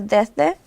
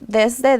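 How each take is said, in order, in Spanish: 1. La s se omite por completo. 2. La s se pronuncia claramente. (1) "perdió la S" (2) "debes de decir desde"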